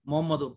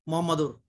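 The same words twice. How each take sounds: Both takes have the same delivery.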